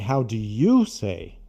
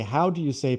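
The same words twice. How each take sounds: First: The word 'you' carries strong emphasis. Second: The word 'you' carries no special emphasis. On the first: The question asks about the listener personally. "I would have to to put more emphasis and say" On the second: The question asks how it is said in general. "But if I just say"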